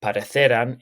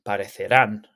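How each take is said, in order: First: Parecerán stressed on the second-to-last syllable, CE; parecerán said as pa-re-CE-ran; misplaced stress. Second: Parecerán stressed on the final syllable, RÁN; stress on accented syllable. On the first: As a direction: put the stress on "ce" in parecerán, leaving the final "rán" weak. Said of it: "Make sure that the stress of the word ... So it's not". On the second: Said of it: "the stress of the word when you pronounce it is the same as where the accent is". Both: Shown as a demonstration.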